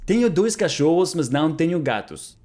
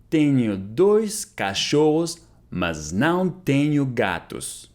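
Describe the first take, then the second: First: Said in the usual way. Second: Very slow, drawn out, clearly spaced; slow model repeat. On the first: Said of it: "repeated model sentence". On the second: Shown as a demonstration. Teacher repeating Portuguese for students, very slowly. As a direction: say it very slowly for learners to copy. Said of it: "slow repeat of model".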